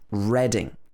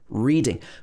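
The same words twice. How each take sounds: First: The first syllable sounds like 'red'. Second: The first syllable sounds like 'reed'. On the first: It is the name of a town. "when we're talking about the name of the place, it's pronounced Reading. R-E-D-I-N-G" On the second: It is the verb for looking at text. "If you're reading a book, we would pronounce this as reading"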